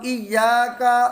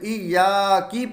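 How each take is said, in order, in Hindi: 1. यह शब्द 'a' स्वर पर खत्म होता है। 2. यह शब्द 'i' स्वर पर खत्म होता है। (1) "काफ है इसके ऊपर ज़बर है" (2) "ज़ेर पढ़ दें तो ये गलत है"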